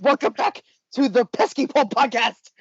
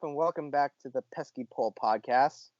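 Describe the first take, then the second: First: It is said with very high energy. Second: It is said in a flat monotone. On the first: "Right now you're at like a one hundred twenty-seven" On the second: "the most monotone thing I've ever heard"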